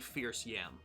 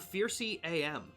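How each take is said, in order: First: The name ends with the word yam. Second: The name ends with the letters A and M. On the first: The speaker calls it right. "it is very clearly Fierce Yam" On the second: The speaker calls it wrong. "I called him Fiercy A M"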